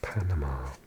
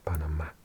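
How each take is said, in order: First: It is pronounced the ordinary English way. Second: It is pronounced the Spanish way, stress shifted.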